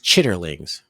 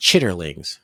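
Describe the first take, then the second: First: It is said in full, with the R sound. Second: It is said in full, with the R sound.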